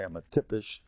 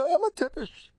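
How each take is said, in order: First: Said in the usual way. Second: Much higher, put-on insulting voice; hammed-up taunt; mock insult voice. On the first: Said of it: "You could say". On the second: Shown as a demonstration. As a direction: throw "I'm a tippish" in a high mocking tone.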